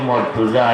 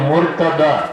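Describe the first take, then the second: First: The name ends with a 'za' sound. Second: The name ends with a 'da' sound. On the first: The speaker calls it wrong. "আমরা কই মর্তুজা ... মর্তুজা উচ্চারণটা ভুল" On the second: The speaker calls it right. "শব্দটা হইল মুরতাদা"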